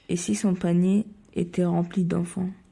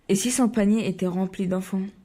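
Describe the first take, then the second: First: The line is said slowly. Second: The line is said fast.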